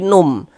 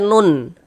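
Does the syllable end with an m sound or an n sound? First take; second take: m; n. First: The syllable ends with an m sound. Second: The syllable ends with an n sound. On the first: The speaker calls it right. "tapi num" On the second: The speaker calls it wrong. "jangan dibaca nun"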